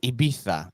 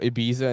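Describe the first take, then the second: First: It is said the Spanish way. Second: It is said the plain English way.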